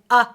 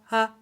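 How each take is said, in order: First: The vowel starts with a sharp throat catch. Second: The vowel starts smoothly without breath or catch. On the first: The speaker calls it wrong. "and I'm not saying uh" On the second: The speaker calls it right. "I'm just opening my throat and starting the sound"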